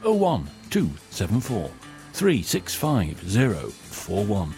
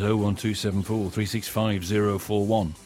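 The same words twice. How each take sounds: First: The number is read slowly. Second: The number is read at normal speed.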